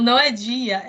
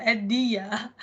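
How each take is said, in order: First: Dia with the D softened to "djee-a"; "dia" palatalised at the start. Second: Dia with a plain hard D, "dee-a"; "dia" with the D left unsoftened. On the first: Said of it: "o meu marido fala dia". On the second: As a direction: say dia with no J sound. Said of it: "eu falo muito dia". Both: Retold or imitated.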